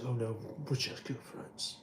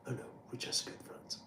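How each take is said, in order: First: Paul impression. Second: A fast, breathy whisper. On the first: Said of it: "you say". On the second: Shown as a demonstration. Paul line repeated as a fast whispered aside. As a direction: whisper it quickly like a secret.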